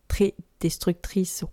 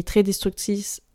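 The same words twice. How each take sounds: First: "destructrice" slowly and softly, sound by sound; careful retry. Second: Said in the usual way. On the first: Real, not acted. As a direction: take "destructrice" slowly to get it right. (reprise lente et appliquée de « destructrice ») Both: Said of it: "wow, je vais réussir".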